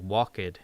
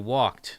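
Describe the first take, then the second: First: The ending is said as an extra syllable. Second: The word is said as one syllable. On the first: The speaker calls it wrong. "Brazilians with a, you know, Brazilian Portuguese accent say" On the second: The speaker calls it right. "is how you say it in, you know, American English"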